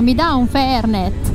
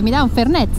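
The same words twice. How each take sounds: First: The vowels are drawn out and lengthened. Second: The vowels are short and not lengthened. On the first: "Cordova ha le vocali allungate" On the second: "Alla Rioja si dice"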